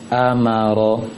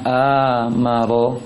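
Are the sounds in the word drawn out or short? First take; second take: short; drawn out. First: Each sound is short and quick. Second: The sounds are drawn out long. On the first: The speaker calls it right. "Seharusnya ketiga itu sama" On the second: The speaker calls it wrong. "jangan baca amaro"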